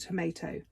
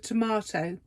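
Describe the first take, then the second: First: It is said with an American pronunciation. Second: It is said with a British pronunciation. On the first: The speaker calls it wrong. "not a tomato. America" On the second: The speaker calls it right. "I'm English. This is a tomato"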